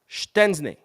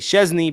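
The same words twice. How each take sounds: First: The name is said the native Polish way. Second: The name is said an anglicized way. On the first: The speaker calls it right. "that is how you say it correctly" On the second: The speaker calls it wrong. "you have to say things wrong for people to be happy"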